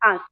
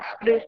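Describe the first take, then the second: First: The word ends softly, with no separate d sound. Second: The word ends with a clearly released d sound. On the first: The speaker calls it right. "ક જે છે ને એ અંદરથી બોલાય છે" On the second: The speaker calls it wrong. "આવી રીતે નો બોલાય"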